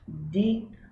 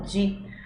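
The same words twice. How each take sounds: First: It is said with a plain d sound. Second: It is said the Brazilian way, as in dia. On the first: "No italiano, D I vai ter sempre o som de di" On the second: "em muitos lugares do Brasil a gente fala di, como em dia"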